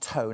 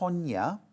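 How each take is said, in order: First: The name is said with one syllable. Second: The name is said with two syllables. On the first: The speaker calls it wrong. "not Tone" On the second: The speaker calls it right. "I think it's pronounced Tonya"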